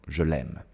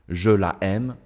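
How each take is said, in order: First: The vowel of la is dropped before aime. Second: The vowel of la is kept before aime. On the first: The speaker calls it right. "J'utilise l'apostrophe" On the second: The speaker calls it wrong.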